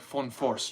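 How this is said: The name is said with a German pronunciation. The speaker calls it right. "Like German pronunciation"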